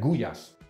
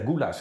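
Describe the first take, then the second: First: It is said the native Hungarian way. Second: It is said the common foreign way. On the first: The speaker calls it right. "se dice gullas" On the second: The speaker calls it wrong. "yo sé que no se dice goulash"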